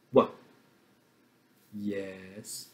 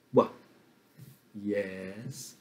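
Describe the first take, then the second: No difference in how they are said.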